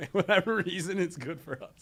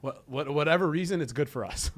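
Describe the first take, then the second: First: Laughing repeat. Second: Said in the usual way. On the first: Real, not acted. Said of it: "repeats it laughing". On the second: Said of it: "says it, then repeats it laughing".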